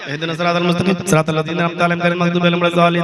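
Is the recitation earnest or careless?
careless. It is recited carelessly, like a joke.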